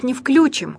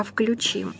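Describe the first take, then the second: First: "включим" stressed on "вклю"; wrong first-syllable stress. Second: "включим" stressed on "чим"; softer "включим", weight on the last syllable; correct end stress. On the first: Teacher rejecting the mistake, "включим" stressed on "вклю". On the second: Teacher correcting the mistake, "включим" stressed on "чим". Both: Shown as a demonstration. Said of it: "то есть не включим, а включим".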